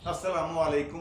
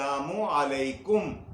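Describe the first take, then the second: First: The greeting is run together into fewer syllables. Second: Every syllable of the greeting is said clearly. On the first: The speaker calls it wrong. "इसको बिगाड़ा ना करें" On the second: The speaker calls it right. "ये अल्फाज हैं, यही बोला करें"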